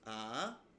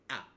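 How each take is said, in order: First: The pitch rises from its starting point. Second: The sound is cut off sharply and short. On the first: "it can rise upwards from a basic starting position upwards" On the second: "a really sharp, clear, and, and short manner"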